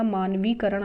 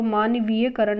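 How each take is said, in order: First: मानवीकरण with no ya; correct form. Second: मानवीयकरण with ya before करण; incorrect form. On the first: Teacher giving the correction, मानवीकरण without ya. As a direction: say मानवीकरण as maan-vee-karan. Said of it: "मानवीकरण आएगा". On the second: Teacher rejecting the misspelling, मानवीयकरण with extra ya. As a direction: say मानवीयकरण as maan-vee-ya-karan. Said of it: "मानवीयकरण नहीं आएगा". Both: Shown as a demonstration.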